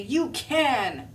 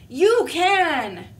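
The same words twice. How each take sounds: First: Said in the usual way. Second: You can shouted high and loud; loud pep talk. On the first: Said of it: "He's gonna say". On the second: Acted. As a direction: belt You can like you mean it.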